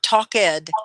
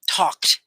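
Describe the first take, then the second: First: The word is said as two syllables. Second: The word is said as one syllable. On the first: The speaker calls it wrong. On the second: The speaker calls it right.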